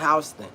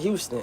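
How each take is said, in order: First: It uses the local Georgia pronunciation. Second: It uses the widespread, usual pronunciation. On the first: This is how people in this area say the name. "except for here, this shit called Houston" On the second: This is how most people say the name. "everybody in the world call H O U S T O N Houston"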